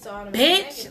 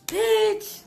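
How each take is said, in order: First: It sounds confrontational and hostile. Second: It sounds warm and excited. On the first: We are about to fight. "what's up? We about to fight" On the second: I haven't seen you in a while. "That could be excited"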